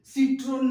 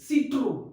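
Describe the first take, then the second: First: The word ends with a clear n sound. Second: The word ends on a vowel, without n. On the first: The speaker calls it wrong. "सिट्रोन नहीं है" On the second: The speaker calls it right. "It's सिट्रो"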